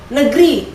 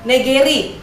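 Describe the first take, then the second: The two takes are said the same way.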